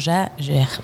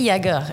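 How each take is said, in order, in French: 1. Le nom se prononce à la française. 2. Le nom se prononce à l'allemande. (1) "Sauf qu'en français, tu prononcerais comment?" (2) "en France, c'était Jaeger, effectivement. ... Chasseur en allemand"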